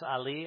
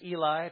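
First: The word is said as 'Ali'. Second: The word is said as 'Eli'. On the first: This is the technically accurate Hebrew form. "Technically, it's Ali" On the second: This is the usual English reading. "we would read that as Eli"

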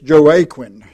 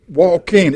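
First: The name follows its written spelling. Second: The name departs from its written spelling. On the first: This is how the spelling suggests it. The speaker calls it wrong. "That's the way it's spelled" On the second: This is how it is actually pronounced. The speaker calls it right. "But it's Joaquin. It's pronounced Joaquin"

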